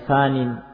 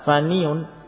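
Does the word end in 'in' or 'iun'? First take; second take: in; iun. First: The word ends with a short 'in' sound. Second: The word ends with a full 'iun' sound. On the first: The heavy case ending is left implied. The speaker calls it right. "Jadi muqaddar saja, jadi fanin" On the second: The underlying case ending is pronounced in full. The speaker calls it wrong. "berat untuk mengucapkan faniun, itu berat"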